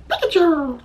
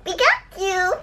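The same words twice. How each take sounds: First: Said in the usual way. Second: High squeaky cartoon creature call; Pikachu voice. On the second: Voices the Pokemon after guessing it.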